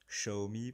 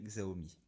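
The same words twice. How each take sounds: First: The name is said with Chinese-style pronunciation. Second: The name is said with French-style pronunciation. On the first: "pour ceux qui veulent prononcer à la chinoise" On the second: "moi je dirais Xiaomi"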